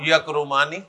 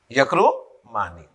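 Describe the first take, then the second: First: Said in the usual way. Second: "یکرمانی" slowly, lifted before a pause, then a low "Mani"; broken in two. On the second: Shown as a demonstration. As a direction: split "یکرمانی" before its ending for learners. Teacher repeats the form in parts.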